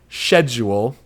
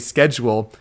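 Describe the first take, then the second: First: It is said with a British pronunciation. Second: It is said with an American pronunciation. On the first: This is how the British game's characters say it. "they totally say schedule" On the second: This is how the speaker's own group says it. "we would say schedule"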